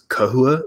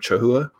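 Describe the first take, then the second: First: The name begins with a hard k sound. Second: The name begins with a soft, non-k sound.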